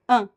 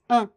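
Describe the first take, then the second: No difference in how they are said.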